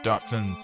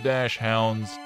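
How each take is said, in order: First: The first syllable is said with a hard 'k' sound. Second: The first syllable is said with a 'sh' sound. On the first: The speaker calls it right. "You got a hard sound in there" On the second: The speaker calls it wrong. "Not dash hounds"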